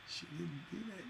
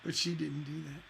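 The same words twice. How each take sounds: First: Dropped almost to a whisper; hushed repeat. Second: Said in the usual way. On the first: Shown as a demonstration. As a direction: say it under your breath, much softer.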